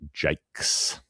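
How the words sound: The name is said the Australian way. "that's how we decided to pronounce it in Australia"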